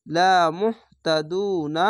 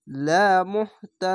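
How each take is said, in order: First: Said in the usual way. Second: লা মুহতাদুন ending on a stopped ন, no final না; লা মুহতাদুন said slowly, closing on ন; pausal form. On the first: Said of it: "এই না উচ্চারণ না হয়ে". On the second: Shown as a demonstration. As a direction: stop on the ন in লা মুহতাদুন. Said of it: "এরকম হবে".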